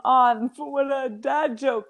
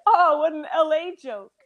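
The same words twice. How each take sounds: First: Said in the usual way. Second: Groaning at a corny joke; mock groan. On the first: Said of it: "instead of saying". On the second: Shown as a demonstration. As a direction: groan it out, playful. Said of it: "you just like".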